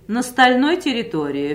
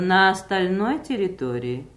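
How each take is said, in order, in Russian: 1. Гласный после 'на' проглатывается. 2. Гласный после 'на' чётко произносится. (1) "не глотайте, не пропускайте одну из двух или трех рядом стоящих гласных" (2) "вместо"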